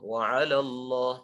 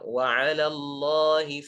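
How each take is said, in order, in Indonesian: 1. L pada 'ala terdengar tebal dan berat. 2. L pada 'ala terdengar tipis dan ringan. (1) "jangan dibaca" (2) "Yang benar ... lamnya tipis"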